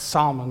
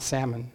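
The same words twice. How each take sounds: First: It is pronounced unlike the word for the fish. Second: It is pronounced like the word for the fish. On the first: It is the name of a man. The speaker calls it right. "That's Salmon" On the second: It is the name of a fish. The speaker calls it wrong. "not Salmon, okay? He wasn't a fish"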